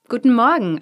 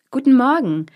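First: Said in the usual way. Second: High, loud greeting with stress on Guten; calling out. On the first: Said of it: "antwortete diese". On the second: A narrator's reading. Travellers greeting the sentry, loud call. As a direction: call Guten Morgen up to the gate. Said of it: "riefen sie der Schildwache".

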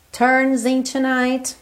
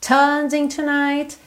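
First: Slow "turns into night" with a curled R in "turns"; rhotic American R. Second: Slow, higher "Turns into night", no R in "Turns"; non-rhotic British R. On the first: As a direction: curl and hold the R of "turns". ("turns" com R enrolado, à americana) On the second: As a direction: stretch the vowel of "Turns", tongue uncurled. ("Turns" sem R, à britânica) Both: Shown as a demonstration. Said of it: "Os dois são corretos".

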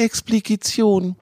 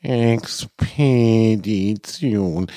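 First: "Expedition" garbled as "Expligition"; mispronounced word. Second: "Expedition" spelled out very slowly and clearly; correct pronunciation. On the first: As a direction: stumble over "Expedition", saying "Expligition". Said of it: "Es heißt Expedition". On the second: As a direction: carefully correct "Expedition", syllable by syllable. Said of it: "rief der Fuchsvater Swanke in gespielter Verzweiflung". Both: Acted.

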